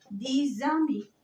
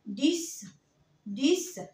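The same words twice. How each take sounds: First: "دي زامي" slowly, x voiced as z; liaison with z. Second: "ديس" ending on a voiceless s. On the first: Teacher giving an example of the rule, linking z. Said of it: "بتنطق ز". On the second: Teacher modelling the number ten alone, s sound. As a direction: finish "ديس" with a hissed s. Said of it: "الإكس هنا بنطقها إس". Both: Shown as a demonstration.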